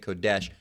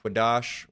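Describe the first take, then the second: First: The word is said as kodesh. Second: The word is said as quadash.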